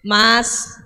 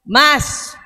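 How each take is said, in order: First: The name is called at normal pitch. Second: The name is called at a somewhat raised pitch. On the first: This is the first call. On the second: This is the second call after being ignored.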